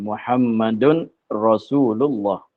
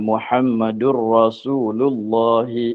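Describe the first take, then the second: First: The n is kept, with a break before Rasulullah. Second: The n merges into a doubled r, joined smoothly. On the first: "Itu baca dengan secara wakaf" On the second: "kalau sambung Muhammadur Ra, tasydid pada ra, jadi idgham lah"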